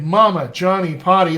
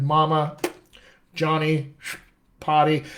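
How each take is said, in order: First: Said in the usual way. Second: "Mama", "Johnny", "Potty" each cut off by a long pause; choppy separate words. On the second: Shown as a demonstration. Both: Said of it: "it's not like we did".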